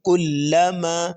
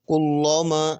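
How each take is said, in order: First: کلما slow, the lam kept thin and light; correct thin lam. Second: کلما with a thick, heavy lam, wrong way. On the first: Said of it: "بلکہ کلما". (کلما باریک لام کے ساتھ، درست) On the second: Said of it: "کلما ایسا نہیں ہوگا". (کلما موٹے لام کے ساتھ، غلط) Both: Shown as a demonstration.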